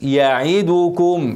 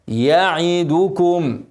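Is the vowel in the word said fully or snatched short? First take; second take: snatched; full. First: The vowel is snatched and cut short. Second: The vowel is pronounced fully and clearly. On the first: The speaker calls it wrong. "والاختلاس" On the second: The speaker calls it right. "لا يعي يعدكم"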